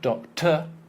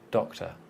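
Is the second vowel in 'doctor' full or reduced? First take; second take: full; reduced. First: The second syllable has a full, clear vowel. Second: The second syllable has a weak schwa vowel. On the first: The speaker calls it wrong. "It's not doctor" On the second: The speaker calls it right. "the second one, almost not there"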